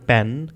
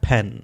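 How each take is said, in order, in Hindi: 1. p को बिना हवा के झोंके के छोड़ा जाता है। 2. p को हवा के तेज़ झोंके के साथ छोड़ा जाता है। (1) "आप इसको सिंपल प के साथ भी प्रोनाउंस कर सकते हैं" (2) "with extra puff of the air"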